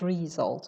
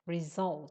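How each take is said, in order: First: The stress is on the first syllable. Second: The stress is on the second syllable. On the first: The speaker calls it wrong. "not result" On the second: The speaker calls it right. "Stress is on the second syllable"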